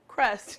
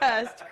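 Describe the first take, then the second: First: The word has an r after the k. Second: The word has no r after the k. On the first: The speaker calls it right. "Did I say that right? Crust" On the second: The speaker calls it wrong. "not cust"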